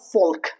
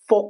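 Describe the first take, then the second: First: The L sound is pronounced in the word. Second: The L sound is silent in the word. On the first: The speaker calls it wrong. "when you include the L in folk" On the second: The speaker calls it right. "It's folk song"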